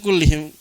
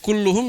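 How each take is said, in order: First: The vowels after the double l are i sounds. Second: The vowels after the double l are u sounds. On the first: "bisa kullihim" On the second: "bisa dibaca kulluhum"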